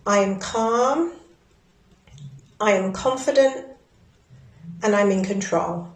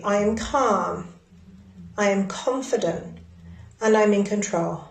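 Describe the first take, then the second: First: Affirmation. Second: Firm falling ends on calm, confident, control; with certainty. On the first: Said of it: "tapping and repeating after me". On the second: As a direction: say "I am calm" as a settled fact. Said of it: "say it with certainty". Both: Shown as a demonstration.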